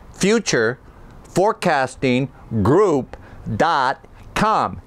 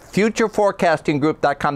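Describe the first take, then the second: First: "Future forecasting group dot com" spaced out, a pause between words; each word separate. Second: Said in the usual way. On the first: Acted. Counts out the five words.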